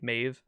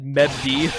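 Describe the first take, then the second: First: The name ends with a v sound. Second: The name ends with a d sound. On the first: The speaker calls it right. "The B D is like a V" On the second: The speaker calls it wrong. "For the longest time, I just said Mevd"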